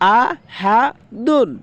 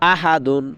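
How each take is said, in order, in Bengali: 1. শব্দাংশগুলো ধীরে ধীরে, একটি একটি করে বলা হয়। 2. শব্দাংশগুলো দ্রুত, একসাথে জুড়ে বলা হয়।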